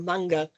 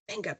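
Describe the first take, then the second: First: It is pronounced the Japanese way. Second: It is pronounced the English way.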